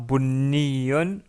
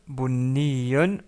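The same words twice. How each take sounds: No difference in how they are said.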